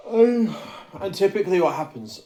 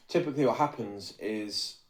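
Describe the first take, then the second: First: High loud booming ogre voice. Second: Said in the usual way. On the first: Real, not acted. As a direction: boom it out like a dim ogre. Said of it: "I sounded like a fucking ogre then". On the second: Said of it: "sorry, I sounded like a fucking ogre".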